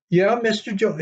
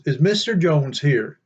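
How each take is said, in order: First: High, falling voice for the wife echoing Mister Jones; puzzled wife. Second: Said in the usual way. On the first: Retold or imitated. Wife echoes the driver's question, high and puzzled. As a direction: echo it back high and bemused.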